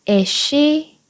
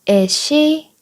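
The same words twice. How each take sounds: Both takes have the same delivery.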